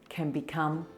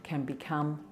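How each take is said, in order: Both takes have the same delivery.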